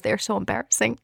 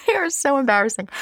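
First: Said in the usual way. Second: Higher, laughing and exaggerated; laughing emphasis. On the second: Real, not acted. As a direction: ham up the embarrassment with a laugh. Repeats line with emphasis.

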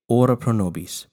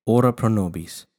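The two takes are said the same way.

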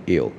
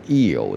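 First: "ill" short and easy, in one syllable; relaxed pronunciation. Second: "ill" stretched into two parts, "ee-yo"; forced mispronunciation. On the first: Teacher asking learners to relax, easy "ill". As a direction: keep "ill" loose, the L unforced. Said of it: "请你放轻松念". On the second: Teacher showing a learner's mistake, forced two-syllable "ill". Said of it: "我请你放轻松念". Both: Shown as a demonstration.

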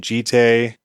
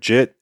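First: "Jite" said like "jee-tay", in two syllables; "Jite" with a long ee, ending in "tay"; pronounced Jite. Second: "Jit" said as one short syllable, rhyming with "sit"; pronounced Jit. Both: Shown as a demonstration. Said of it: "how it's actually pronounced".

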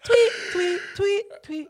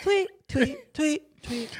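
First: Very high chirping tweets; parakeet chatter. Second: High bird-like tweets; parakeet chatter. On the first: Repeating the high tweet vocal. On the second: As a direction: chirp it like a little parakeet. High tweeting vocal imitation. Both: Retold or imitated.

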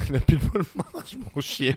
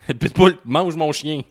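First: Slow, teasing parody of his friend's excuse; mocking repeat. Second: Louder, slower, insisting it's not his fault; indignant protest. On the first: Co-host teasingly parroting his friend's excuse: mock imitation. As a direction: echo the excuse back like it's ridiculous. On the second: Real, not acted. To his co-host, defending himself: indignant and emphatic. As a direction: plead your case, a bit exasperated.

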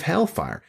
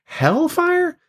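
First: Said in the usual way. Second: Very high-pitched disbelieving echo; incredulous. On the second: Acted. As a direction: squeak it back as an astonished question. Mock objection to Jesus's warning.

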